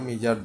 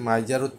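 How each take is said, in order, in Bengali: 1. প্রথম স্বরধ্বনিটি 'ee' এর মতো শোনায়। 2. প্রথম স্বরধ্বনিটি 'eye' এর মতো শোনায়। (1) "সরু বা মিজার, দুঃখ" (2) "এটাকে যদি মাইজার উচ্চারণ করেন তাহলে হয়ে যাবে কৃপণ"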